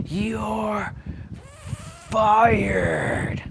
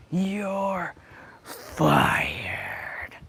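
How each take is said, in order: First: High, drawn-out "You're fired" like a wrestling boss; Vince McMahon impression. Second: High drawn-out "You're", then a whispered "fired"; Vince McMahon impression. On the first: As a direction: stretch out "You're" up high, then slam down "fired". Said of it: "I'll be like Vince McMahon". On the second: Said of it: "that's how he said it".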